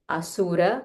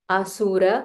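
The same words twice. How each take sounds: No difference in how they are said.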